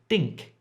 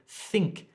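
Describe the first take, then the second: First: The first sound is d-like, tongue curled up. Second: The first sound is a clear th. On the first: The speaker calls it wrong. "it sounds like you're saying think" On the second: The speaker calls it right. "instead of think"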